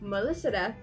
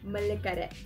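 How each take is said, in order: First: The name has an S sound in the middle. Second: The name has a K sound in the middle. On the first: This is the correct form of the name. The speaker calls it right. "instead of saying Meliseret" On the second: This is the form used by people who cannot say it correctly. The speaker calls it wrong. "they pronounce her name Melikaret"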